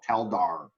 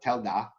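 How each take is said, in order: First: The final R sound is fully pronounced. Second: The final R sound is dropped. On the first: The speaker calls it right. "you got a good rich R" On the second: The speaker calls it wrong. "But there was one time Telda"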